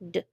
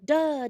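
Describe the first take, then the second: First: The d sound is clipped with no vowel after. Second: The d sound is followed by an uh vowel. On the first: The speaker calls it right. "D says d" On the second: The speaker calls it wrong. "D doesn't say duh"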